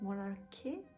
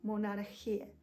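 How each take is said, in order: First: The ch is a hard k sound. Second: The ch is a rasping throaty sound. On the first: The speaker calls it wrong. "it's not monarchy" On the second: The speaker calls it right. "it's ch"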